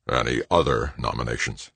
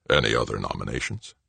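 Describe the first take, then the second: First: Restrained anger in a lowered voice; low, angry. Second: Low, softly rising question with a coy grin. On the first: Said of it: "in a low, angry voice". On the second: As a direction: ask coyly, grinning, in a lowered voice. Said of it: "Grinning coyly, Arnold asked". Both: A narrator's reading.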